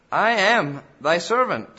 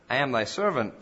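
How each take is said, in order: First: "I am thy servant" louder, higher and slower; emphatic repetition. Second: Said in the usual way. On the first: Acted. Preacher repeats the psalmist's vow to God for emphasis, emphatically. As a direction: declare "I am thy servant" with weight on I. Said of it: "but for emphasis' sake". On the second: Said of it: "not just to repeat it".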